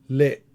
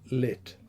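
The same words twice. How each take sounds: First: The final t is unreleased with a glottal catch. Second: The final t ends with a small puff of air. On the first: "unreleased voiceless alveolar stop with glottal reinforcement" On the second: "a final release of a voiceless alveolar stop"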